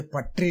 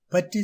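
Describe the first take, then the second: First: "பற்றி" as pat-ri, r sounded; wrong pronunciation. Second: "பற்றி" with blended ற்ற, no rolled r; correct pronunciation. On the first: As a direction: say "பற்றி" with hard t and rolled r. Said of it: "என்று சொல்வது தவறு". (தவறான உச்சரிப்பு "பற்றி", பட்ரி என்று) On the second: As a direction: say "பற்றி" close to patti. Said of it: "சரியான உச்சரிப்பு". (சரியான உச்சரிப்பு "பற்றி", ர ஒலி இல்லாமல்) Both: Shown as a demonstration.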